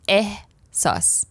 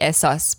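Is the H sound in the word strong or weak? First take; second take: strong; weak. First: The H sound is strong and clearly breathed. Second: The H sound is weak and barely heard. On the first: The speaker calls it right. "You really pronounce the H" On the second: The speaker calls it wrong. "in English, it would probably be ehsas"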